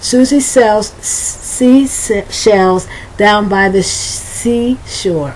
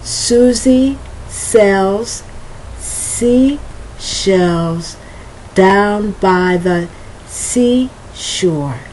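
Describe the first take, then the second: First: The phrase is spoken very fast. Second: The phrase is spoken slowly. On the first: "I'm gonna try to go as fast as I can go" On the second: "I'm gonna do it slowly"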